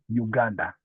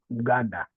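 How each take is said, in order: First: The first vowel is said the English way. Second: The first vowel is said the Swahili way. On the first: "instead of Uganda" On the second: "We just say Uganda"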